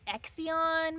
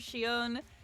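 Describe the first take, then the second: First: The name begins with an 'ex' sound. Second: The name begins with a 'sh' sound. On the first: This is how fans used to say the name. The speaker calls it wrong. "we all thought it was like Exion" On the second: This is how the name is actually said. The speaker calls it right. "instead of Shion"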